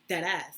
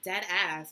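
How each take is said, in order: First: It is said in the speaker's own natural way. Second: It is said in a mocking imitation of another's delivery. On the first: This is how the speaker's community says it. The speaker calls it right. "that's how we say it" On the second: This is how an outsider said it. The speaker calls it wrong. "she's not saying it right"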